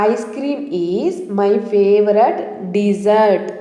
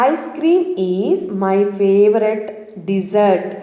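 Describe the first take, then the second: The two takes are said the same way.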